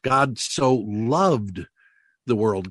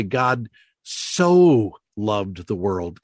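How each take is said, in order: First: Slow, with "loved" pushed; "God so loved" leaning on "loved", then "the world"; weight on "loved"; stress on LOVED. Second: Slow, drawn-out "so" leaned on; "God so loved the world" with the weight on "so"; stress on SO. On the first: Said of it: "emphasize a different word each time". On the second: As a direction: lean hard on "so". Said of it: "And then you would say". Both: Shown as a demonstration.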